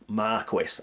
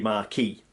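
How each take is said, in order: First: It is said the traditional British way. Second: It is said the international, French-style way. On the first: It is the British title used at home. "When it's us, we call it Marquis" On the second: It follows how the title holder says it himself. "even us British, when we say Marquis de Sade, for example, we'll say Marquis"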